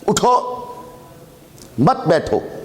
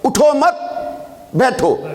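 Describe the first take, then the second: First: The pause comes right after the first word. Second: The pause comes right after the second word. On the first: Stand up and do not sit. "उठो वक़फ़ कर दिया, मत बैठो" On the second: Stay seated and do not get up. "अब वक़फ़ बदलने लगा हूं"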